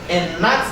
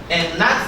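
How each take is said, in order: The two takes are said the same way.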